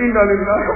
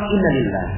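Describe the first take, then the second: First: It sounds sour and resentful. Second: It sounds calm and accepting. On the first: The loss is not accepted. The speaker calls it wrong. "Seakan-akan nggak terima. Ada jeruk nipisnya" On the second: The loss is accepted gratefully. The speaker calls it right. "dibaca sama dengan alhamdulillah"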